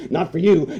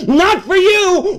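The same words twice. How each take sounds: First: Said in the usual way. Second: "Not for you" yelled high and slow; shouted. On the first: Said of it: "calm restatement". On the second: Retold or imitated. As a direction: hammer "Not for you" home loudly. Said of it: "is screaming to you".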